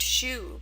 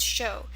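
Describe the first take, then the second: First: The word ends in an 'oo' vowel. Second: The word ends in an 'oh' vowel. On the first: The speaker calls it wrong. "It looks like it should be pronounced shoe" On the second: The speaker calls it right. "but it's pronounced show"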